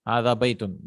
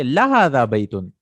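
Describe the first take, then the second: First: Said in the usual way. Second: لا هذا louder and quick, stressed at the front; emphatic. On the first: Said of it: "I want to add little bit of". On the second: Shown as a demonstration. Teacher answering someone who disagrees, emphatic stress on لا هذا. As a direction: punch لا هذا harder than بيت. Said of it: "emphasis, because that person is saying".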